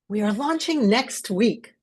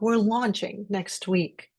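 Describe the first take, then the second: First: It sounds bold and visionary. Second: It sounds warm and empathetic. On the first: The team is being inspired to follow. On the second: The team is being thanked. "empathetic when you're trying to thank your team"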